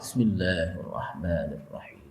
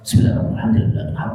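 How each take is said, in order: First: It is recited slowly and carefully. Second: It is recited quickly and carelessly.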